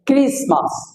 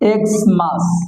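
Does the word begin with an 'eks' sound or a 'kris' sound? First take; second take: kris; eks. First: The word begins with a 'kris' sound. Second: The word begins with an 'eks' sound. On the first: The speaker calls it right. "এক্স এর উচ্চারণ হবে ক্রিস" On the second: The speaker calls it wrong. "So এক্স মাস নয়"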